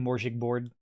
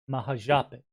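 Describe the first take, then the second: First: The name is said as Morjig board. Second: The name is said as Mahajapit. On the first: The speaker calls it wrong. "That one was on purpose" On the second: The speaker calls it right. "first try"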